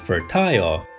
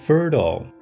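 First: The ending is a full 'ile' sound. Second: The ending is reduced to a short 'ul' sound.

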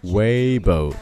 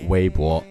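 First: It is said with English sounds and vowels. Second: It is said with Mandarin sounds and tones. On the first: The speaker calls it right. "他们读成了Weibo Weibo，把最后一个字母O 就读成了O 的元音" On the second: The speaker calls it wrong. "还真不读作微博"

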